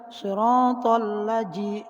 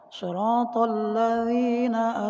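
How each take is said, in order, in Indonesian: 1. Kata kedua punya bunyi j. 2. Kata kedua punya bunyi dh yang lembut. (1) "dengan huruf jim maka salah" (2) "itu huruf zal"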